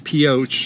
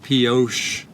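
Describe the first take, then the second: First: The name is said the local way. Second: The name is said a French-style way. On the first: It follows how a local resident says it. The speaker calls it right. "in honor of how he pronounced it" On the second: It follows a guessed French pronunciation. The speaker calls it wrong. "so not Pioche"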